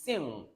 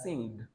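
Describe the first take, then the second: First: "sing" ending softly on ng; "sing" without any hard g; silent g. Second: "sing" ending in an audible hard g; "sing" mispronounced as sing-g; wrong sounded g. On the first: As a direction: finish "sing" on the nasal, no g. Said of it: "It's sing". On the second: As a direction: release a g after "sing". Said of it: "Don't pronounce it as sing". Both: Shown as a demonstration.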